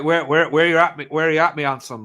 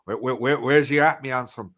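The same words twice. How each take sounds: First: Imitating a Cornish local's greeting; broad Cornish West Country lilt, a bit louder; Cornish accent. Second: Lighter second take of the Cornish greeting; easy West Country lilt, tossed off; Cornish accent. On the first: Imitating Cornish locals to friends, broad Cornish accent. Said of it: "stuff like that, people saying that". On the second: Retold or imitated. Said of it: "people saying that".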